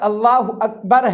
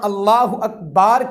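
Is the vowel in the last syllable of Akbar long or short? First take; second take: short; long. First: The last vowel of Akbar is short. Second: The last vowel of Akbar is lengthened. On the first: God is the greatest. The speaker calls it right. "अल्फाज अल्लाह अकबर है" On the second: The meaning is changed. The speaker calls it wrong. "बा के आगे वो अलिफ को लगा लेते हैं"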